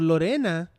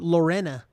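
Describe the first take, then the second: First: The name is said with a Spanish accent. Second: The name is said with an English accent. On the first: The speaker calls it right. "Lorena is the Spanish name" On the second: The speaker calls it wrong. "that's how you would say it with an English accent"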